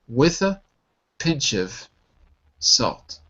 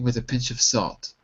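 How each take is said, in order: First: The phrase is said slowly. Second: The phrase is said at normal speed.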